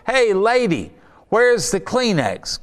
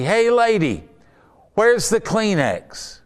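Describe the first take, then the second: First: Man shouting over the crowd at the fortune teller, playful mock call; mock heckler. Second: High, drawn-out call over the crowd; man shouting over the crowd at the fortune teller, playful mock call; mock heckler.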